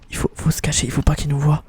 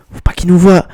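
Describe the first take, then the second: First: Low, soft stealthy whisper; hushed whisper. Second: Said in the usual way. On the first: Pretend. Player telling himself to hide, hushed whisper. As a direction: keep it down so you stay hidden. Sneaking, hiding from the enemy.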